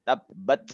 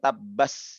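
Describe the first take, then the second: First: The final t is released with breath. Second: The final consonant sounds like an s. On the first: The speaker calls it right. "tapi tabbat yada, ada serpihan hamas" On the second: The speaker calls it wrong. "bukan tabbas"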